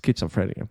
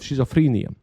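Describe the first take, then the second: First: The word does not begin with 'sh'. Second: The word begins with an 'sh' sound. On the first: The speaker calls it right. "but it's schizophrenia" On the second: The speaker calls it wrong. "I always pronounce this sh"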